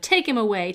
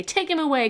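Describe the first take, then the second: First: Loud shout of "Take him away!". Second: Shouted higher. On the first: Crowd shouting at Pilate, loud "Take him away!". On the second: Crowd escalating at Pilate, higher louder "Take him away!". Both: A narrator's reading. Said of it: "But they shouted".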